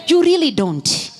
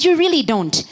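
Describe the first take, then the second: First: Preacher's shout. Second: Repeated shout. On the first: Preacher pressing the congregation, shouting. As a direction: drive the point home with a shout. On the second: Preacher repeating to the congregation, shouting. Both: Real, not acted. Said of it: "I said".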